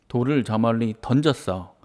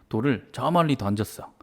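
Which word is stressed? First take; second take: 던졌어; 저 멀리. First: The verb 던졌어 gets the strongest stress. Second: The phrase 저 멀리 gets the strongest stress. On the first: The speaker calls it wrong. "동사 자체에 힘을 줘서 말을 하면 뭔가 좀 어색합니다 ... 이렇게 하면 좀 어색하죠" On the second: The speaker calls it right. "이게 훨씬 자연스럽습니다"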